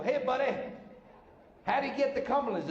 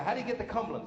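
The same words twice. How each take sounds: First: Lightly disguised, higher voice; changed voice. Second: Said in the usual way. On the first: Acted. Lost driver asking the same guy, in a lightly disguised voice. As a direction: put on a slightly different, higher-pitched voice. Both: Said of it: "so I changed my voice".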